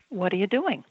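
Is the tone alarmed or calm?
calm. It sounds calm and gently curious. The adult invites the child to explain. The speaker calls it right. "modulate her tone and say"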